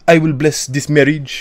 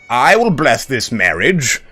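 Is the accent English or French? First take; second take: French; English. First: It is said in a French accent. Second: It is said in an English medieval accent.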